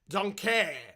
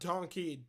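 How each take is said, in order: First: It is said in a put-on character voice. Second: It is said in an ordinary speaking voice. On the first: The speaker calls it right. "I'm saying it like Shrek" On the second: The speaker calls it wrong. "not donkey"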